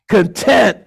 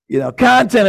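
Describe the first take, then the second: First: The stress falls on the second syllable. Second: The stress falls on the first syllable. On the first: It means satisfied. "Content is about, I'm satisfied with what the Lord has given me" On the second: It means stuff to consume. "Content is about acquisition. I want stuff"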